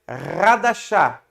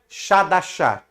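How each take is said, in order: First: The word begins with a guttural rasping sound. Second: The word begins with a sh sound. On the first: The speaker calls it right. "se lê com dois R's. Então é Radashah" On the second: The speaker calls it wrong. "nós não lê Shah, então não é Shadashah"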